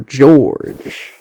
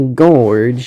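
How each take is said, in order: First: It begins with a soft J-like sound. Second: It begins with a hard G sound. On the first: The speaker calls it right. "you say" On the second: The speaker calls it wrong. "You don't say"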